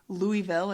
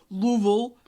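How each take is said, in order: First: Said the outsider way, sounding out every syllable. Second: Said the local way, with syllables squeezed together. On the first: The speaker is not from there. "if you're not" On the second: The speaker is from there. "if you're from there"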